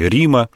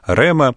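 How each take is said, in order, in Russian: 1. Оно в рейхлиновском древнегреческом произношении. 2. Оно в не-рейхлиновском древнегреческом произношении.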